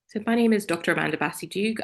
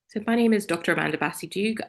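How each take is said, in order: First: It is said in a polished telephone voice. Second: The same.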